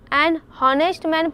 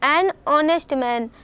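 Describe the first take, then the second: First: Honest begins with an audible h sound. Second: Honest begins with a vowel, no h sound. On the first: The speaker calls it wrong. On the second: The speaker calls it right.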